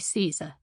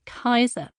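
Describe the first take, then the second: First: The name begins with an s sound. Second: The name begins with a k sound. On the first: "standard English and Italian pronunciations of Latin" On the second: "rather than the ancient"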